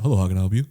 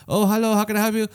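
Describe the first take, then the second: First: Lower, more matter-of-fact greeter voice; different order-taker. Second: High, chirpy greeter voice; drive-thru lady. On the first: Another employee cutting in on the speaker, low-key. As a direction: drop it low for a second employee. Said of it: "somebody else comes in". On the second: Lady on the drive-thru speaker greeting a customer, perky. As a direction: pitch it up like an order-taker. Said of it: "like, a lady being like". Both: Retold or imitated.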